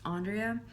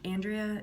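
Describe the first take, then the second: First: Andrea said AHN-dree-uh; name said as pronounced. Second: Andrea said AN-dree-uh; short "a" as in "and" to start Andrea; name said as spelled. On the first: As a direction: open "ah" at the start of Andrea. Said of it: "it's just pronounced Andrea". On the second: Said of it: "it's spelled Andrea". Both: Shown as a demonstration.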